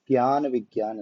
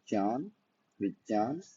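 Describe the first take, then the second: First: ज्ञ is said with a g-based sound. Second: ज्ञ is said with a j-based sound. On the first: This is not how Sanskrit speakers say it. The speaker calls it wrong. "वो ज्ञान विज्ञान नहीं पढ़ते हैं" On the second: This is how Sanskrit speakers say it. The speaker calls it right. "कुछ संस्कृत के लोगों का ... ये ऐसे ही पढ़ते हैं"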